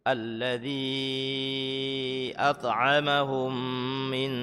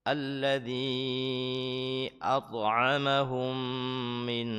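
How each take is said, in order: The two takes are said the same way.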